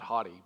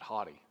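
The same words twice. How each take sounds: First: The first syllable sounds like the word hot. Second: The first syllable does not sound like hot. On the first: The speaker calls it wrong. "Not haughty, ... Not like hot" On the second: The speaker calls it right. "but haughty"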